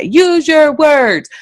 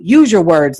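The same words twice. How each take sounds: First: Higher, drawn-out stock parental phrase; imitating nagging parents. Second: Said in the usual way. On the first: Imitating people telling a crying child to talk, drawn-out. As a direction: stretch each word in a mock parental voice. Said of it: "like people say".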